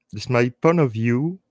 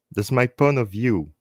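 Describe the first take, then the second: No difference in how they are said.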